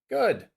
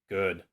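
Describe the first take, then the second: First: The voice falls from a high pitch. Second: The voice falls from a low pitch.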